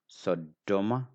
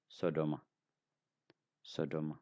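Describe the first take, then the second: First: Sodoma slowed by a long stop on the d; double d. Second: Sodoma short and softer, with one light d; single d. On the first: Teacher showing learners how to say it, doubled d. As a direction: make the d in Sodoma double and strong. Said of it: "da double". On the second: Teacher showing learners the non-word, soft single d. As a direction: say Sodoma with no hold on the d. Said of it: "If you don't have da double". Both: Shown as a demonstration.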